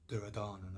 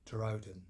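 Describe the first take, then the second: First: The name ends with an extra a vowel. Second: The name ends on the final n consonant. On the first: The speaker calls it wrong. "not Duryodhana as I call him" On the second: The speaker calls it right. "it's Duryodhan"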